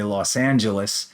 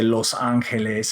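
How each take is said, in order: First: The name is said with English sounds. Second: The name is said with Spanish sounds. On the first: The speaker calls it right. "I would say Los Angeles" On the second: The speaker calls it wrong. "I wouldn't say Los Angeles"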